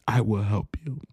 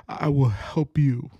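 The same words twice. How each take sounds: First: Breathy whispered promise. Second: Said in the usual way. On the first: Acted. God's promise repeated to the listener, whispered. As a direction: drop to a whisper.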